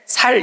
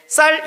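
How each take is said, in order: First: The word starts with a plain s sound. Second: The word starts with a tense s sound. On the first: The speaker is from Gyeongsang. "살 이러면 경상도 사람이다" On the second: The speaker is not from Gyeongsang. "쌀 이러면 적어도 경상도 사람은 아니다"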